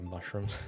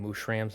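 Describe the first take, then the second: First: The second syllable rhymes with 'rooms'. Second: The second syllable rhymes with 'rams'. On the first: "instead of mushrooms" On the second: "hear me saying mushrams instead of mushrooms"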